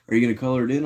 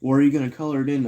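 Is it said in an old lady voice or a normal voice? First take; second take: normal; old lady. First: It is said in the speaker's normal voice. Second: It is said in a put-on old lady voice.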